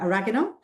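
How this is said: It is said with an American pronunciation.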